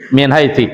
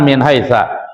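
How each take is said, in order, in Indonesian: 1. Kata terakhir diakhiri dengan vokal i. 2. Kata terakhir diakhiri dengan vokal a. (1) "salah itu ya" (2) "bukan min haitsa"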